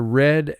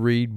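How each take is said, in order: First: The vowel is short, rhyming with 'bed'. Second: The vowel is long, rhyming with 'seed'. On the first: The action happened in the past. "It's the past tense of read" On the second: The action happens in the present or generally. "If you are going to use the word read, it would be I like to read books"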